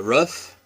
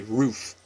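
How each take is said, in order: First: Said in the usual way. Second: "roof" with the short vowel of book. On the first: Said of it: "which is, I believe, the proper pronunciation". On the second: Shown as a demonstration. Vlogger showing viewers her local pronunciation of roof. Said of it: "and we say roof".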